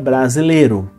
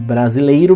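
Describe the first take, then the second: First: The vowel is a single plain 'e'. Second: The vowel is a full diphthong 'ei'. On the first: This is the form in everyday speech. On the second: This is the form as written.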